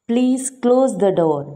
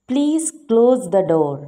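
The two takes are said the same way.

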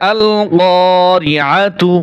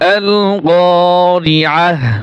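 First: The word ends with a full tu sound. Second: The word ends with a soft h sound. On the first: The reader joins on to the next verse. "আর যদি মিলিয়ে যাই তাহলে আল গরিআতু" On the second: The reader pauses at the end of the verse. "হা উচ্চারণ হবে আল গরিআহ যদি ওয়াকফ করি"

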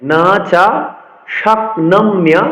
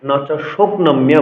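First: The 'sh' sound is followed by an 'a' vowel. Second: The 'sh' sound is followed by an 'o' vowel. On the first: The speaker calls it right. "এখানে কিন্তু তালবসার সাথে ওকার নেই, ফলে আমাদের বলতে হবে" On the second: The speaker calls it wrong. "অনেকেই কিন্তু না চা শকনম্য বলে"

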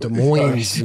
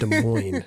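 First: The S sounds in the name are pronounced. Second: The S sounds in the name are silent. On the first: The speaker calls it wrong. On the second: The speaker calls it right. "It's Des Moines"

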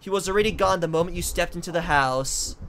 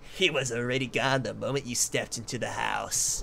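First: It is said in his normal voice. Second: It is said in a put-on character voice.

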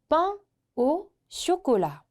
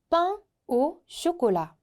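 The two takes are said the same way.

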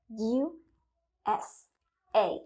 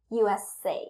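First: It is said slowly, letters separate. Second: It is said fast, letters linked.

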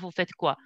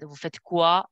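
First: The voice falls at the end. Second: The voice rises at the end. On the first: It sounds like a statement. The speaker calls it wrong. "instead of" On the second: It is asked as a question. The speaker calls it right. "You should only to raise your voice"

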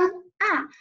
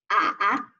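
First: The pitch falls sharply from high to low. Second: The pitch dips low, then rises. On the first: "四声" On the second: "三声"

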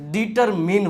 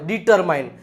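First: The last syllable sounds like 'min'. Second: The last syllable rhymes with 'mine'. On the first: The speaker calls it right. "ડિટરમિન સાચો ઉચ્ચાર છે" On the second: The speaker calls it wrong. "ડિટરમાઇન નો વચાય"

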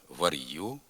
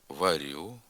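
First: A hard R is followed by a y-sound. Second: The R sound is soft. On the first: This is a Dniester-region dialect pronunciation. The speaker calls it wrong. "після твердого «р» виділився звук «й»" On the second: This is the literary standard pronunciation. The speaker calls it right. "приголосний Р вимовляється м'яко"

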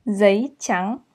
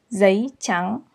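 The two takes are said the same way.

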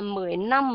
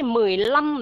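First: The second word begins with an n sound. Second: The second word begins with an l sound. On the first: The speaker calls it wrong. "mình sẽ không đọc là mười năm" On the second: The speaker calls it right. "mà mình sẽ đọc là mười lăm"

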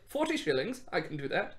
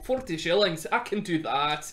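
First: It is said in a plain, unaccented voice. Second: It is said in a Scottish accent. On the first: The speaker calls it wrong. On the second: The speaker calls it right.

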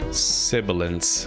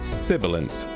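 First: The S sounds are sharp and harsh. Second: The S sounds are soft and smooth. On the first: The speaker calls it wrong. "But then here it is with it off" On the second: The speaker calls it right. "So now that's with the plugin on"

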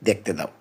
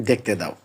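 The two takes are said the same way.

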